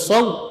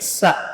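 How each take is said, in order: First: The syllable ends with a w glide. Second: The syllable ends on a plain vowel. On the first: The speaker calls it wrong. "Enggak boleh sin cenderung ke waw, bukan saw" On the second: The speaker calls it right. "tapi sa"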